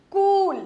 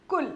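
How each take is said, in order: First: कूल with a long oo, higher pitched; कूल, vowel drawn out high. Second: कुल with a short u; short, quick u in कुल. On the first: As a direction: stretch the oo in कूल. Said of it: "बड़ी ऊ की मात्रा लगाई तो ये हो गया". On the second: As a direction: keep the vowel in कुल brief. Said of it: "छोटी ऊ की मात्रा लगा दी तो ये बन गया कुल". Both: Shown as a demonstration.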